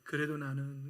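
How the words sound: It is read in a dry, flat way. "무미건조하게"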